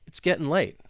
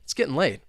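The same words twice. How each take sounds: First: It is spoken at a moderate speed. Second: It is spoken very fast. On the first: "let's speed it up a little bit" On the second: "let's try and say it, well, super fast"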